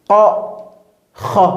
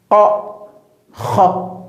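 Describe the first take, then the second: The two takes are said the same way.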